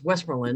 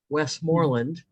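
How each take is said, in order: First: The name is said quickly, all run together. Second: The name is said slowly, syllable by syllable. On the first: Local people say it this way. The speaker calls it right. "You have to say it all fast" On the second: An outsider would say it this way. The speaker calls it wrong. "I was saying it like an out of towner"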